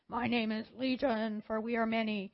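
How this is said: It is said in a Borg-like collective voice.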